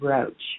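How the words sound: The name is said with an American pronunciation. This is how it is said in the U.S. "But here in the U.S., we say Roach, just like the bug"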